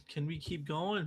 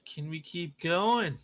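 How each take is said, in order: First: Said in the usual way. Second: Louder and slow, pleading with the market; loud drawn-out plea. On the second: Real, not acted. Streamer begging the trading chart, loud and slow. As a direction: stretch it out, begging the price to climb.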